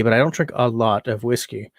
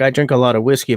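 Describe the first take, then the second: First: "don't" held long and hit hard; stress on don't. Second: "a lot" lifted, rising at "whiskey"; stress on a lot. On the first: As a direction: punch "don't" to correct himself. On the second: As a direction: lean on "a lot" as if boasting. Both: Shown as a demonstration.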